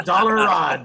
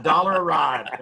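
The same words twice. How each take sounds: First: "dollar a ride" pushed out loud with the stress on "a"; dollar a ride, punched. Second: "Dollar a ride" slowed, leaning on "Dollar". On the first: Buddy barking the ride price at a friend, stress on "a". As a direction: hit "a" hard and drop the pitch. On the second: Repeating the ride price slowly to a friend, stressing "Dollar". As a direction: draw it out with the weight on "Dollar". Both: Shown as a demonstration.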